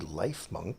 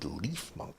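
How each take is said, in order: First: The first syllable has a long 'eye' vowel. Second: The first syllable has a long 'ee' vowel. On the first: The name refers to life and healing. "because ... it's good at planting and growing and medicine" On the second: The name refers to leaves and grass. "because it is, you know, grass type"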